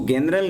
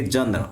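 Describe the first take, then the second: First: जनरल with a hard G, "genral". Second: जनरल with a J sound, "jenral"; soft J. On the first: Teacher shows students the wrong जनरल with hard G. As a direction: start जनरल with a G as in go. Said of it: "इसको जनरल नहीं पढ़ेंगे". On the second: Teacher models correct जनरल for students with J. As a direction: start जनरल with a J as in jam. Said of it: "इसको पढ़ेंगे जनरल". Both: Shown as a demonstration.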